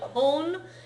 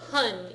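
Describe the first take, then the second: First: The vowel sounds like the one in 'hon'. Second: The vowel sounds like the one in 'hun'. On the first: "make sure it doesn't sound like hon" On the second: "it doesn't sound like hun either"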